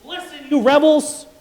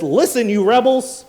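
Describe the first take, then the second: First: Much higher, louder rebuke; furious shout. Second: Loud, higher angry outburst; angry shout. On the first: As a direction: scream it even harder at the rebels. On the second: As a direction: bark it at the crowd. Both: Retold or imitated. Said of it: "Moses got up there and says".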